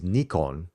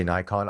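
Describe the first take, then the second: First: "Nikon" with a long ee in front; the Japanese NEE-kon for "Nikon"; Japanese pronunciation. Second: "Nikon" with a long i as in eye; the American NYE-kon for "Nikon"; American pronunciation. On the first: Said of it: "say it in the Japanese way". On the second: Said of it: "obviously Americans say Nikon". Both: Shown as a demonstration.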